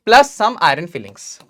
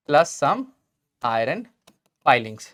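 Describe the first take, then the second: First: Said in the usual way. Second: Plus some, iron, filings, with a pause after each; word-by-word dictation. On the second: Real, not acted. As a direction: let iron and filings sink lower, spaced out. Dictates word by word while writing.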